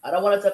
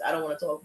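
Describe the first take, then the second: First: Said in the usual way. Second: "I don't wanna talk" said softer and lower, pulling away; withdrawn, shutting down. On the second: Retold or imitated. Imitating herself refusing to talk to her partner, soft and withdrawn. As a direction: close the door on the conversation, quietly. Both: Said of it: "'Cause I do that sometimes".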